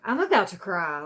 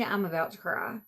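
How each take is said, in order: First: I'm about to cry, lancé plus fort, exaspéré; exasperated, about to cry. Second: Said in the usual way. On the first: Real, not acted. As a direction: crie presque son exaspération.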